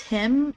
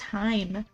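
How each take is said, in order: First: The vowel is short, like in 'him'. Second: The vowel is long, like in 'high'. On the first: "It's pronounced him?" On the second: "I've always pronounced it as Heim"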